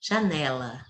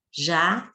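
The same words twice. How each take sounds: First: Said in the usual way. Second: JANELA as ja, ne, la, evenly spaced; syllable by syllable. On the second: Shown as a demonstration. Teacher separating as she speaks, JANELA said syllable by syllable. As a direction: break JANELA into three separate pieces. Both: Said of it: "do mesmo jeito que eu falo".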